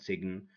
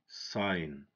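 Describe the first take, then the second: First: The G sound is pronounced. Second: The G sound is silent. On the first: The speaker calls it wrong. "This is wrong" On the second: The speaker calls it right. "If we know the silent letters, we're gonna say"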